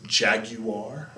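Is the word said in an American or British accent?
British. It is said in a British accent. "If you're British, you pronounce it jaguar"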